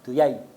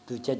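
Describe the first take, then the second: First: The word has a y sound. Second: The word has a j sound.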